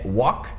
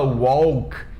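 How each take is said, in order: First: The L sound is left out of the word. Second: The L sound is pronounced in the word. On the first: The speaker calls it right. "walk sem L" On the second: The speaker calls it wrong. "a gente não fala walk"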